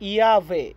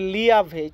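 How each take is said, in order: First: The word begins with a Y sound. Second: The word begins with an L sound. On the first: The speaker calls it right. "এটার উচ্চারণটা হবে ইয়াভে" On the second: The speaker calls it wrong. "Spanish লেখা দেখে বলেন না যে লিয়াভে"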